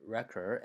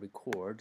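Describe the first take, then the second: First: "record" as REC-ord, first syllable stressed; "record" pronounced as the noun, REC stressed. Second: "record" as re-CORD, second syllable stressed; "record" pronounced as the verb, CORD stressed. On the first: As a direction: stronger REC, weaker ending in "record". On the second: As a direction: weaker start, stronger CORD in "record". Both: Shown as a demonstration. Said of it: "this is even more obvious".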